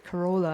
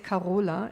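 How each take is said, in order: First: The name is said with an English pronunciation. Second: The name is said the speaker's usual, non-English way. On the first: "and then in English I try to say Corolla" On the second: "because I'm used to say Carola"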